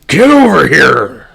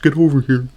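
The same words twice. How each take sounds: First: It is said forcefully, with strong feeling. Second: It is said flatly, with little energy. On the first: The speaker calls it right. "would at least sound like I meant it" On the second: The speaker calls it wrong. "really delivered far too deadpan"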